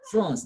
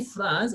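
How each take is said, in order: First: "France." nasal ã, n silent; "France." the correct nasal vowel; nasal French France. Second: "France," plain oral a with n; "France," said the wrong way. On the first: Teacher giving the correct French reading, nasal. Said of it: "we say France". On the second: Teacher showing the error to the class. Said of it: "we don't say France". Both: Shown as a demonstration.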